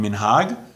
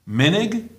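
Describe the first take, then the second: First: The stress is on the last syllable. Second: The stress is on the first syllable.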